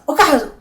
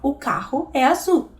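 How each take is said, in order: First: The words run together quickly without breaks. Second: The words are said slowly and kept apart. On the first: The speaker calls it wrong. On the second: The speaker calls it right.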